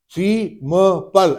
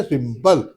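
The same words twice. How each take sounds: First: "सी म पल" as three separate beats; broken into syllables. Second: Said in the usual way. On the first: Shown as a demonstration. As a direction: chop simple into "सी... म... पल", pausing between. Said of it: "ऐसे नहीं बोलते हम". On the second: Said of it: "सीधा बोलते हैं".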